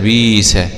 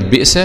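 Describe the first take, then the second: First: The glottal stop is replaced by a long i sound. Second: A glottal stop is heard after the first vowel. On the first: This is how the Warsh reading says it. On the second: This is the base form with the hamza.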